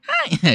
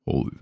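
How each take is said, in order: First: It is said at the speaker's highest pitch. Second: It is said in a very low voice.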